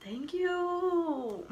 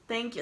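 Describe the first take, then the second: First: High, drawn-out, dainty thank you; prissy thanks. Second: Said in the usual way. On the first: Retold or imitated. To cellmates calling her pretty, a high, prim mock-gracious thank you. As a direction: accept the compliment like a princess.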